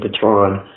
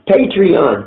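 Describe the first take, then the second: First: The name is said with two syllables. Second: The name is said with three syllables. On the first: The speaker calls it wrong. "I keep saying Patron, but that's not right" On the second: The speaker calls it right. "Thank you"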